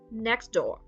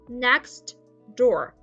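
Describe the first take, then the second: First: The t sound disappears between the words. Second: The t sound is clearly pronounced.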